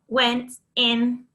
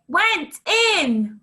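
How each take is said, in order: First: The phrase is said in a robotic voice. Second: The phrase is shouted loudly. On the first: "Robot it" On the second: "Shout it"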